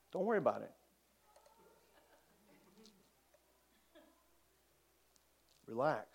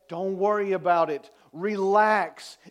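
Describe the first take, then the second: First: Calm reassurance. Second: Full-voiced, preached assurance; firm reassurance. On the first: Acted. Jesus calming a father whose daughter died, quiet and unruffled. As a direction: soothe gently, with long pauses. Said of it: "This is Jesus' response". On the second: Jesus to those mourning their losses, firm and preached. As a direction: declare it firmly to the whole room. Same words now preached firmly.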